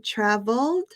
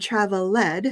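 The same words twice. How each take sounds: First: Said in the usual way. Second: "traveled" as three beats, trav-el-LED; wrongly split ending. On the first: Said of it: "it's still said the same". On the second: Shown as a demonstration. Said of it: "You're not going to say".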